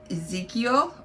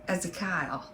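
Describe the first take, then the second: First: The name has a standard, non-regional pronunciation. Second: The name has a rural mountain-style pronunciation.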